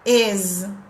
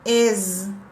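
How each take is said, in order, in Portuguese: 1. A palavra termina com um som de z sonoro. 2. A palavra termina com um som de z sonoro.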